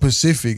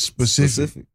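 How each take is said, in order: First: The word begins with a plain p sound. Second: The word begins with an sp sound. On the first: The speaker calls it wrong. "It's not Pacific" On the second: The speaker calls it right. "It's specific"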